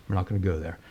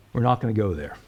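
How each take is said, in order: First: We're not gonna go there said again, softer and trailing off; preacher echoing himself, quieter; quieter repeat. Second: Said in the usual way. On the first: Shown as a demonstration. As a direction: let the repeat fall away softly.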